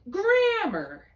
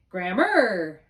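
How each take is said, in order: First: GRAM-mar with the first syllable high and loud; teacher to student: stress "grammar" on GRAM, high and loud. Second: Gram-MAR with the second syllable stressed; teacher to student: stress "grammar" on the last syllable. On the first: Hit GRAM hard. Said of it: "on the left side, we're gonna say". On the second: Lean on MAR. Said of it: "And on the right side, you're gonna say". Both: Shown as a demonstration.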